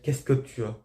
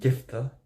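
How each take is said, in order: First: Every syllable is clearly articulated. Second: The syllables are slurred into one short word. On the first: The speaker calls it right. "si tu veux dire" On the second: The speaker calls it wrong. "t'as pas articulé un mot"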